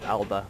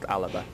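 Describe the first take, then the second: First: The word is said with two syllables. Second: The word is said with three syllables. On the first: "It's spelled Alba" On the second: "but it's pronounced Alaba"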